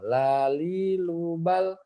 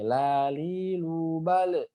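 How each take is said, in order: First: The final L sound is held without a bounce. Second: The final L sound is released with a bounce. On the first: The speaker calls it right. "lidahnya itu nempel ke langit-langit depan" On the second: The speaker calls it wrong. "jangan memantul, jangan gini"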